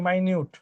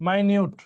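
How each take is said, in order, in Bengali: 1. এটা 'my' দিয়ে শুরু আর 'nyoot' দিয়ে শেষ। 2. এটা 'my' দিয়ে শুরু আর 'nyoot' দিয়ে শেষ।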